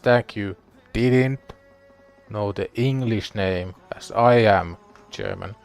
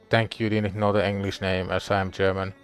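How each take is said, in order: First: Several words in the sentence get extra emphasis. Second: The sentence is read evenly, without added emphasis.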